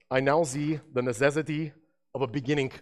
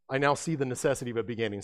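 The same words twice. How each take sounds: First: Said in the usual way. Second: Quick, lightly voiced Einstein; a hint of Albert Einstein, said fast; faint mock Einstein, hurried; Albert Einstein impression. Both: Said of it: "that was my best Albert Einstein".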